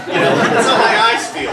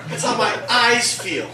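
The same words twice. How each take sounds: First: "how" hit louder on the repeat; emphatic repeat. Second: Said in the usual way. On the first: Shown as a demonstration. Comic repeating the punchline to the crowd, leaning on "how". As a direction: drive the line home by leaning on "how".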